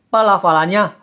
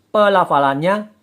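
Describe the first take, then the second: The two takes are said the same way.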